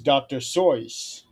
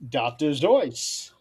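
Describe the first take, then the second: First: The surname begins with an S sound. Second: The surname begins with a Z sound. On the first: The speaker calls it wrong. "another mispronunciation that I'm trying to correct Don on" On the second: The speaker calls it right. "It's actually pronounced"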